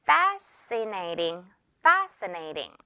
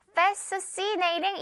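First: "Fascinating" as FA-suh-nay-ting with one s; simple single S. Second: "Fascinating" with an extra s-see in the middle; "Fascinating" read by its spelling, fes-seu-si-nei-ting; complicated misreading. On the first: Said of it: "단순하게 S 발음 하나만". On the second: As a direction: say "Fascinating" as if both s and c sounded. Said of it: "복잡하게 발음될 것". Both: Shown as a demonstration.

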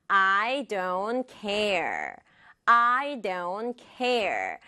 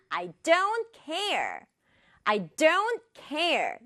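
First: "I don't care" slowly, equal weight on each word; every word stressed. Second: "don't" raised high and stretched, "care" falling; stress on DON'T. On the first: Teacher modelling the second sentence, slow even stress. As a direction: give "I", "don't" and "care" each a full beat. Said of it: "다 강조할 수도 있어요". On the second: Teacher showing the usual meaning, stressed "don't care". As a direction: pass lightly over "I", hit "don't care". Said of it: "여기에다 강조할 수 있겠네요". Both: Shown as a demonstration.

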